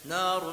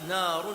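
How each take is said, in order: Both takes have the same delivery.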